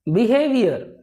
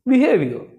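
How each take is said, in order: First: The last syllable is said with full force. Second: The last syllable is said lightly and reduced. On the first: The speaker calls it wrong. "लास्ट word पे भी पूरा focus डाल देते हैं" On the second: The speaker calls it right. "बोलना क्या है"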